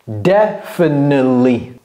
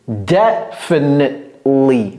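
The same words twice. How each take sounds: First: The t and e sounds are skipped entirely. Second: The final syllables are swallowed and reduced. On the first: "Il va sauter tout le T et le E" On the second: "Vous voyez comment on avale la fin?"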